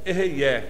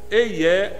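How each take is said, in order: First: The h is made as a guttural throat sound. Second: The h is soft or dropped, Portuguese style. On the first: "tem um H aqui que é um negócio meio assim gutural" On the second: "num português assim, mais simplão"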